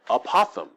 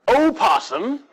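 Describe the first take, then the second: First: The s sound is lisped like th. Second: The s sound is clear, without a lisp.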